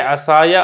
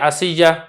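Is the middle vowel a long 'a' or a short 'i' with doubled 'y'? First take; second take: long a; short i. First: A long 'a' comes before the final 'ya'. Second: A short 'i' comes before a doubled 'y'. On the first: This is the common form. "आप इसको पढ़ेंगे असाया" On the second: This is the form used by one tribe. "स्वाद पर आप फतह नहीं पढ़ेंगे बल्कि कसरा पढ़ देंगे"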